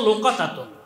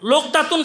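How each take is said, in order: First: A vowel is heard between the first two consonants. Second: No vowel is heard between the first two consonants. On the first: The speaker calls it right. "বড় ওয়াজনে ফোয়ালাতুন" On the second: The speaker calls it wrong. "আমরা উচ্চারণ করি, এটা গলত শব্দ"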